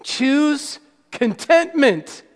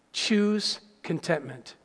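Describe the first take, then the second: First: "Choose contentment" stretched very slow and raised in pitch; "Choose contentment" spaced out deliberately for weight; emphatic repeat. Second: Low, soft, slow statement; hushed, measured advice; quiet key point. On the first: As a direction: draw out each word of "Choose contentment", higher. Key point repeated for emphasis. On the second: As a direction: state it gently, low and unhurried. Key point stated, then repeated. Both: Real, not acted.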